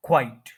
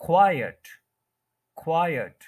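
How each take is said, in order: First: "क्वाइट" as kwite, meaning quite; one-syllable word. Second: "क्वाइट" as KWAI-et, meaning silent; two-syllable word. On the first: Teacher contrasting the other word, one-syllable pronunciation. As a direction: say "क्वाइट" in one single beat. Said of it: "one syllable है". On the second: Teacher giving the word for silence, two-syllable pronunciation. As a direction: give "क्वाइट" two syllables, first stressed. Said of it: "खामोशी के लिए word use करते हैं". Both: Shown as a demonstration.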